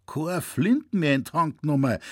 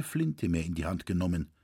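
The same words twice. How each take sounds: First: Put-on old man can't believe what he hears; old hunter repeats the news in shock; astonished exclaim. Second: Said in the usual way. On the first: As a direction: repeat it back in higher, louder disbelief. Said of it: "rief er".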